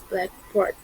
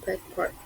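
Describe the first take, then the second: First: The stress is on the second part, board. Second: The stress is on the first part, black. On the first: "usually on board is stronger in free phrase" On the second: It names a single thing, a board for writing on. "as a compound"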